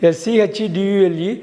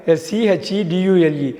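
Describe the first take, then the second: No difference in how they are said.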